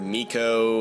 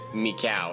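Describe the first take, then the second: First: The name ends with an 'oh' sound. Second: The name ends with an 'ow' sound. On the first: The speaker calls it wrong. "I've heard Miko and just a bunch of other things, but I don't think that's correct" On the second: The speaker calls it right. "The Japanese people that I've heard pronounce it pronounce it Mikau. So I'm guessing that is the correct way"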